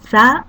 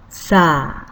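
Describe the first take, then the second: First: The vowel is held briefly. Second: The vowel is held twice as long.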